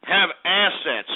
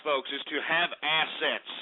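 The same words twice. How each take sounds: First: "Have" hit hard, drawn out slowly; lecturing his viewers, slowly stressing "Have assets". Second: Said in the usual way. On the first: Shown as a demonstration. Stress on "Have", said slowly. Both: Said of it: "Do you understand?".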